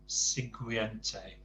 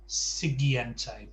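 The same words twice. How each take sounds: First: The u after the g is sounded. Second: The u after the g is silent. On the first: The speaker calls it wrong. "you couldn't resist sounding the U" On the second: The speaker calls it right. "Don't don't pronounce the U at all"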